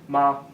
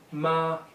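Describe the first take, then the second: First: The pitch is light and unmarked. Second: The pitch stays high and level. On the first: Added at the end, it makes a question. "final neutral tone, which is nice and easy" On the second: It means mother. "first tone, flat tone"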